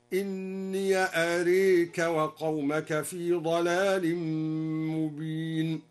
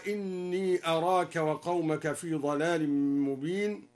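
First: "أراك" with the a after ra bent toward e; imala. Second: "أراك" with open a after ra; standard reading. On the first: Teacher demonstrates al-Duri's imala, slow tarteel. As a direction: slowly say "أراك" as arek. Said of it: "هكذا". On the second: Teacher quoting the standard reading, plain chant. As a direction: say arak plainly. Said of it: "فتح الياء وأمال الألف بعد الراء هكذا". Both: Shown as a demonstration.

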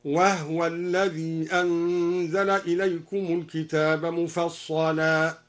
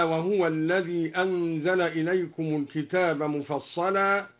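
First: وهو said wahwa with a silent h vowel, slow recitation; Duri reading. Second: Said in the usual way. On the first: Shown as a demonstration. Teacher reciting al-Duri's reading, slow tartil. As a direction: recite وهو as wahwa, drawing out مفصلا slowly. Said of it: "سكن الدوري الهاء هكذا". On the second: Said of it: "هكذا".

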